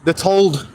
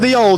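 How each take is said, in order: First: The word 'the' shrinks to a t-sound. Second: The word 'the' is said in full. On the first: "in Barnsley they'll go the told" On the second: "We'll say the old"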